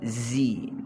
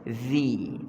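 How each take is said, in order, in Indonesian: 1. Konsonan ini bunyi z yang bergetar. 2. Konsonan ini dh yang lembut, lidah di gigi. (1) "tu zai" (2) "Za ni hujung lidah kita sentuh hujung gigi hadapan"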